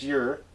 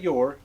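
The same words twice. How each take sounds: First: The word is said in a folksy dialect form. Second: The word is said in standard English form. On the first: The speaker calls it right. "It's your" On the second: The speaker calls it wrong. "not your"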